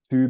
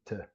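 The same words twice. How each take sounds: First: The word is said in its full form. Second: The word is said in a reduced weak form.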